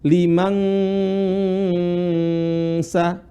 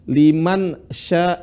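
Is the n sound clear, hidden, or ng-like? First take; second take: ng-like; clear. First: The n sound is blurred into an ng sound. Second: The n sound is pronounced fully and clearly. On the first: "Kesalahan orang baca apa? ... Dia mirip seperti ang" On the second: "itu yang namanya jelas"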